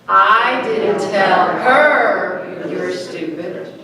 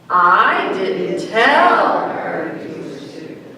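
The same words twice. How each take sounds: First: The stress is on her. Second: The stress is on tell.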